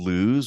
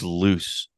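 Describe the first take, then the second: First: The name does not rhyme with goose. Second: The name rhymes with goose. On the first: "Are you saying lose?" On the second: "like the the, the goose is loose"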